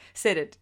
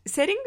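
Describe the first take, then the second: First: Said in the usual way. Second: Setting? said as one word, ending in a puzzled high rise. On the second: Shown as a demonstration. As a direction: question the word Setting? with a high lift at the end. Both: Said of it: "where Making a Murderer is setting".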